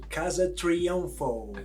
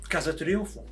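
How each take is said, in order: First: The name is said in an American accent. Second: The name is said in a Portuguese accent.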